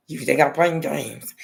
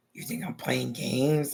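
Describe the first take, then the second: First: Slowed, firmer threatening question; menacing mom again. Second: Slow, quiet threatening question; menacing mom. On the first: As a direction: press the threat a bit harder. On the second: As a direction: lean in low and slow, daring her. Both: Retold or imitated. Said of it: "Like that".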